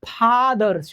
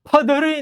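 First: The first vowel is a long open ah. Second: The first vowel is a short uh. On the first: The speaker calls it right. "ફાધર છે" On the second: The speaker calls it wrong. "ફધર નહીં"

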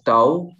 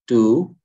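First: The vowel sounds like 'ow'. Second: The vowel sounds like 'oo'. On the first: The speaker calls it wrong. "You read it as tau, it is not tau" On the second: The speaker calls it right. "you have to say it as a u"

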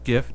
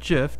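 First: The word does not sound like Jif. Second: The word sounds like Jif. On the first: This is the speaker's own pronunciation. The speaker calls it right. "I pronounce it GIF" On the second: This is the pronunciation the speaker rejects. The speaker calls it wrong. "not GIF. GIF is peanut butter"

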